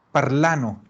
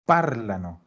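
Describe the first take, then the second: First: Parlano stressed on the middle a, par-LA-no; wrong stress. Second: Parlano stressed on the first syllable, PAR-la-no; correct stress. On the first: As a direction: parlano with the weight wrongly on the ending. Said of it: "en esa A no puede cargar el acento". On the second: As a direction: parlano with the weight on PAR, ending unstressed. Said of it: "solo puede cargar en esa A". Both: Shown as a demonstration.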